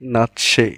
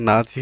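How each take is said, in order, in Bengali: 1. মাঝের ব্যঞ্জনবর্ণটি ts ধ্বনি। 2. মাঝের ব্যঞ্জনবর্ণটি z ধ্বনি। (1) "এটার উচ্চারণ কি? নাৎসি" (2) "একটাও এটার সঠিক উচ্চারণ না"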